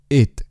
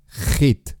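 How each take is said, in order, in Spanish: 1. Empieza directamente con la vocal. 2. Empieza con una consonante gutural áspera. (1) "Prueba a utilizar solo la vocal" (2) "utilizar la J de forma muy agresiva"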